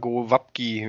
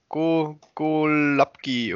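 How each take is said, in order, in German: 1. Der mittlere Konsonant klingt wie ein W. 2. Der mittlere Konsonant klingt wie ein L. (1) "Schon wie ein W" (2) "wie auch immer man dieses L mit dem Strich da ausspricht"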